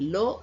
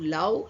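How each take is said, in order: First: The vowel is said like 'oh' in go. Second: The vowel is said like 'ow' in cow. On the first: The speaker calls it right. "L O W ಸಹ ಲೋ ಎಂದು ಉಚ್ಚಾರಣ ಬರುತ್ತದೆ" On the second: The speaker calls it wrong. "L O W ಲವ್ ಎಂದು ಹೇಳುವುದಿಲ್ಲ"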